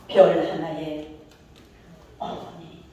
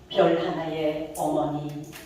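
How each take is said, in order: First: The tone of voice shifts sharply at 어머니. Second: The tone of voice stays level throughout. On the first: The speaker calls it right. "이럴 때 감동이 이백 배 증가하는 거예요" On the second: The speaker calls it wrong. "이게 아니고"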